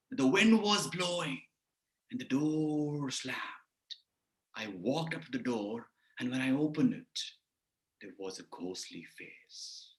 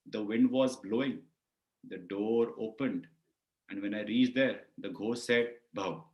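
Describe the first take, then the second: First: Dramatic storytelling. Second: Said in the usual way. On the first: Shown as a demonstration. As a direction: draw out the suspense, ever softer and lower. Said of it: "If I say like this". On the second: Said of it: "It's like a comic story".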